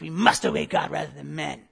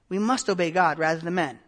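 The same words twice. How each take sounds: First: It is said in a defiant, combative tone. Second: It is said plainly and calmly. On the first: The speaker is attacking the listener. The speaker calls it wrong. "I don't think it's" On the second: The speaker respectfully states a conviction. The speaker calls it right. "I think that Peter is speaking plainly to this man of God"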